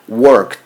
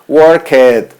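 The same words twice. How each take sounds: First: The ending is a short 't' sound. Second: The ending is said as a separate 'ed' syllable. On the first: The speaker calls it right. "Tengo que decir worked" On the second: The speaker calls it wrong. "es una pronunciación incorrecta"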